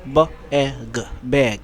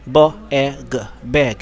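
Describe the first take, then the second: Both takes have the same delivery.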